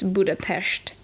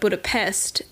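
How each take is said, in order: First: The s is pronounced as sh. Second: The s is pronounced as s. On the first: This is the Hungarian pronunciation. "The S letter is pronounced as an S H. So in Hungarian, it would be perhaps Budapest" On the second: This is the English pronunciation. "Budapest is how we say it in, in English"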